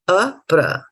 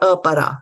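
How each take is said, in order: First: The p and r join with no vowel between. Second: A full vowel is sounded between p and r. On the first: The speaker calls it right. "A pra, not a para" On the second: The speaker calls it wrong. "not a para"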